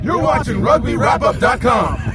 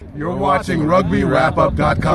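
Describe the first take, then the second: First: It is said with more excitement. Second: It is said flatly, without excitement.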